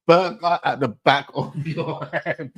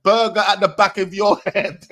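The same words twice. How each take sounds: First: Slow, breaking into laughter mid-line; can't get through the line without cracking up; quoting it through real laughter; laughing quote. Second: Loud, high, gleeful quoting of the line; repeating the lyric loudly; excited quote. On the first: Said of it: "Man just said". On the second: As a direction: shout the line back in disbelief. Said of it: "Man said". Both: Retold or imitated.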